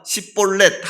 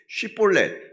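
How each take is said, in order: First: The word begins with a plain 's' sound. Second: The word begins with an 'sh' sound. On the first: The speaker calls it wrong. "그 발음을 못합니다" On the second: The speaker calls it right. "이 발음이 안 된다는"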